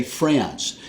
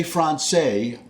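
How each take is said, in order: First: France with a flat American A; American pronunciation. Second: Francais as fron-say; avoided foreign pronunciation. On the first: Telling viewers his choice, plain American France. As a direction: say France as franss, one syllable. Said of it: "I'm gonna say". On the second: Naming what he won't say, Francais as fron-say. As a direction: say Francais with an ah, ending in say. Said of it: "I won't say". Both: Shown as a demonstration.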